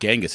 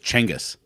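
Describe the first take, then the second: First: The name begins with a J sound. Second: The name begins with a CH sound. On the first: The speaker calls it wrong. "it's not Genghis" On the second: The speaker calls it right. "it's Chenghis"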